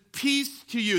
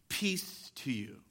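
First: Peace lifted high and pressed hard; emphatic peace. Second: Soft, slow, hushed peace to you; tender quoting of Jesus. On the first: Preacher proclaims the risen Lord's greeting, lifted and emphatic. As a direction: proclaim Peace to you with raised voice. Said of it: "far more that the risen Lord comes and he says". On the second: Preacher voices Jesus greeting frightened disciples, soft and tender. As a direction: breathe it gently like a blessing. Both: Acted.

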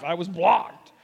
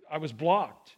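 First: Playful protest, punching BLOCKED; mock indignation. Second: Low-key, lower-pitched mock dejection; mock hurt. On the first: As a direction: complain with hammed-up disbelief, hitting "blocked". Repeats it as mock outrage. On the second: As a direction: let it drop, playing the rejected one. Retelling being blocked, acted hurt.

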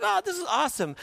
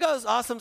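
First: Much higher gushing delight; mock someone thrilled with life. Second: Delighted gush. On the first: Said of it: "you're like". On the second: Retold or imitated. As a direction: act out the happy moment again. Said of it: "the moment you're like".

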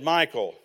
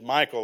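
First: Imitating the wife's firm warning "Michael", slightly louder with a falling end. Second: A retold stern "Michael" with a firm drop at the end; warning tone. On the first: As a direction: say "Michael" as a mock stern warning, dropping at the end. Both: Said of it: "like that with the tone".

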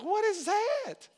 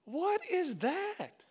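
First: High, slow, loud cry of amazement; loud stunned question, high and slow; astonished exclaim. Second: Hushed drawn-out disbelief. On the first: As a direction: gape in disbelief, drawn out. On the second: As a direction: let the wonder sink in, slowly. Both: Retold or imitated. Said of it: "Be like".

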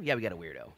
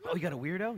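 First: "Yeah, we got a weirdo." low, falling at the end; resigned answer. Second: "Oh, you got a weirdo?" high, rising at the end; surprised question. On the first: The family admits to the odd brother, answering low. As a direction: drop "weirdo" low as a flat confirmation. Acted reluctant answer to question. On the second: Samuel asks the family about the odd brother, questioning. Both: Acted.

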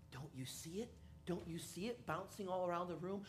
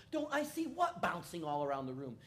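First: Stoned friend. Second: Said in the usual way. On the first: Retold or imitated. High friend quietly insists.

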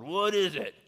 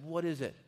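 First: "What is it?" barked much louder and higher, ready for a fight; a father wheeling round on his son, armed and annoyed; sharp defensive snap. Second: Said in the usual way. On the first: Retold or imitated. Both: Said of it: "I turned around with my sword".

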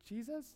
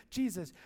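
First: Soft, questioning rise; unsure answer. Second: Said in the usual way. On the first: Acted. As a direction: answer hesitantly, as if guessing. Unsure answer to squirrel riddle.

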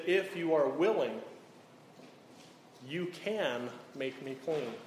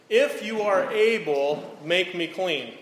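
First: Willing said softly, falling away; "If you are willing", a humble, falling take; the right version, soft and humble; stress on willing. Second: Able lifted higher, louder and slower; "If you are able", a slow, demanding take; the wrong version, stressed on able. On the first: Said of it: "He said". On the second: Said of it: "he didn't say to Jesus". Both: Shown as a demonstration.

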